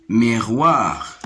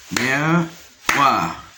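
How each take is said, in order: First: Said in the usual way. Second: "Miroir" split in two, mi-roir, with a pause; syllable by syllable. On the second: Shown as a demonstration. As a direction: hold each half of "Miroir" apart. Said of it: "de deux syllabes". (« Miroir » en deux syllabes séparées : mi… roir)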